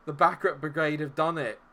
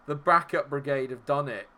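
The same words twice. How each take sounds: The two takes are said the same way.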